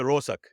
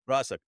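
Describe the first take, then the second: First: The first vowel sounds like a rounded 'o'. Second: The first vowel sounds like an open 'a'. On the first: This is the local dialect form. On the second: This is the form others use.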